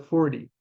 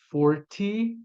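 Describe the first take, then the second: First: The t sound is dropped, focusing on the r. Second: The t sound is pronounced clearly and crisply.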